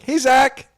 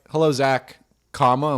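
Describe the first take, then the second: First: The greeting sounds warm and friendly. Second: The greeting sounds cold and formal.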